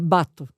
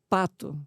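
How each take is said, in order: First: The word begins with a B sound. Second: The word begins with a P sound.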